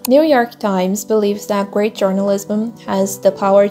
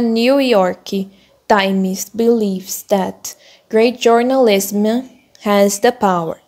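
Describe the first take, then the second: First: It is read smoothly, flowing without stumbling. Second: It is read haltingly, with choppy, stuck delivery. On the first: "demonstrar uma leitura fluida" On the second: "você fala um pouquinho mais travado"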